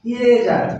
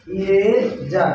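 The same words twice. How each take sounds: First: Said in the usual way. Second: eraser stretched out very slowly, syllable by syllable; slow drawn-out eraser. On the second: Shown as a demonstration. Teacher to pupils: very slow eraser, every sound stretched. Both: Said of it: "আবার যদি বলি".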